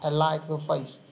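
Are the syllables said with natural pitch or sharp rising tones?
natural. Syllables carry natural English pitch without sharp rises. The speaker calls it right. "không cho dấu sắc và âm thanh, cứ để một cách tự nhiên"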